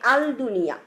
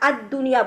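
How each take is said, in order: First: The L is clearly pronounced before the D. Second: The L merges into a doubled D sound. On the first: The speaker calls it wrong. "আমরা বলি নাই আল দুনিয়া" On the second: The speaker calls it right. "এই ওয়ার্ডটার মধ্যে আদ দুনিয়া বলেছি"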